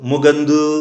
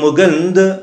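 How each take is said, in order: First: The final vowel is a full long 'oo'. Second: The final vowel is short and reduced. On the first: It sounds like Telugu. The speaker calls it wrong. "ముగందు ఊ అంటేనేమో తెలుగు అవుతుంది" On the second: It sounds like proper Tamil. The speaker calls it right. "ఊకి ఆకి మధ్యలో పలకాలి"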